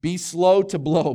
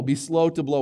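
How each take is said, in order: First: Slow stressed, louder and higher; punchy slogan. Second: Said in the usual way. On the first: Shown as a demonstration. Pastor repeating his catchphrase, stress on slow. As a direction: hit slow hard in Be slow to blow. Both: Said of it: "Everybody say slow".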